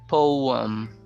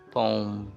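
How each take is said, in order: First: It is said as two syllables. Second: It is said as a single syllable. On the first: "two syllable word" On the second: "so you can remove the second"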